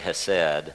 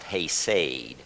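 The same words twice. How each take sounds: First: The first vowel is a short 'eh' sound. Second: The first vowel is a long 'ay' sound. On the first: The speaker calls it wrong. "I want to say hesed" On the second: The speaker calls it right. "it actually would be pronounced hesed"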